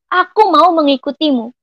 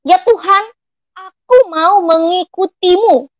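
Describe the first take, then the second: First: Said in the usual way. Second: Lifted, slow, earnest vow to God; retold bold declaration. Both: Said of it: "Aku berkata dengan lantang".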